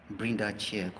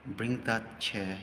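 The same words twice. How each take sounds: The two takes are said the same way.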